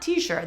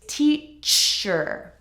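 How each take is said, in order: First: The CH is soft, like SH. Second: The CH is hard and crisp. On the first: The speaker calls it wrong. "It's not t-shirt. That sounds like a t-shirt" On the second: The speaker calls it right. "Be sure to say the C H correctly"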